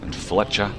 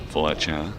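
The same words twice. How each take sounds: First: Said in the usual way. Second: Fletcher barked in a lightly voiced prison warder; a hint of the Porridge warder calling Fletcher; mock warder calling Fletcher; Mister Mackay impression. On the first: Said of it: "almost impossible to say his name without invoking Mister Mackay". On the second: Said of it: "invoking Mister Mackay from Porridge".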